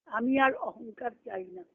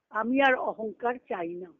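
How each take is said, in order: Both takes have the same delivery.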